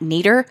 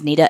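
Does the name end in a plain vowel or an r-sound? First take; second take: r-sound; plain vowel. First: The name ends with an added r-sound. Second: The name ends in a plain vowel sound. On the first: This is how a relative pronounced it. The speaker calls it wrong. "that's how my grandma pronounced it" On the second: This is the name's actual pronunciation. The speaker calls it right. "her name was Nita"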